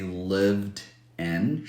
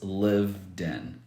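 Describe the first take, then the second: First: The two words are said separately. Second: The final consonant links into the next word. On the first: The speaker calls it wrong. "she doesn't say lived in" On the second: The speaker calls it right. "she says lived in"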